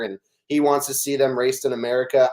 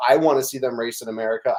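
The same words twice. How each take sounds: First: "he" stressed, rest even. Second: "I" stressed at the start. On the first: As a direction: lean on "he", not the verb. He wants versus I want. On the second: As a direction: lean on "I" to contrast with "he". Echo with I instead of he. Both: Real, not acted.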